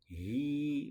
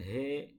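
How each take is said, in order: First: The vowel is a close ee sound. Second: The vowel is a more open eh sound. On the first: The speaker calls it right. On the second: The speaker calls it wrong. "bukan he"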